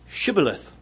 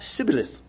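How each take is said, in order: First: The word begins with an 'sh' sound. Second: The word begins with an 's' sound. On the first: This is the form that was demanded. The speaker calls it right. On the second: The speaker cannot produce the demanded form. The speaker calls it wrong. "Came out Sibboleth"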